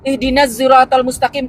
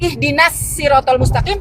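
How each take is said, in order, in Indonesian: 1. Kata siratal diawali dengan bunyi z. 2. Kata siratal diawali dengan bunyi s. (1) "kebanyakan orang Libya pakai huruf za" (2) "pakai huruf sin"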